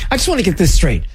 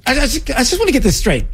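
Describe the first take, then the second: First: Said in the usual way. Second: High, fast, stammering incredulity; exasperated disbelief. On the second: Real, not acted. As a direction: blurt it out, barely believing it. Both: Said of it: "I can't play anymore".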